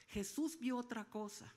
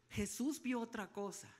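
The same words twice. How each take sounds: The two takes are said the same way.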